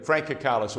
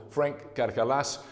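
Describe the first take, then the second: First: "Kakalis" said quickly the everyday English way; anglicised name pronunciation. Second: "Karkalas" slowed right down, each syllable given room; alternative name pronunciation. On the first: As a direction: say "Kakalis" English-style, with a short, light last syllable. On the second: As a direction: say "Karkalas" slowly, with a full "ah" in the last syllable. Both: Shown as a demonstration. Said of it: "or Frank Karkalas".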